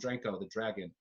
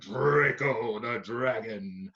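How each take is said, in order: First: It is said in a plain, ordinary voice. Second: It is said in a big, fearsome voice. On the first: The speaker calls it wrong. "we're not going to call him" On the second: The speaker calls it right. "a voice that is worthy of this great, fearsome beast in the sky"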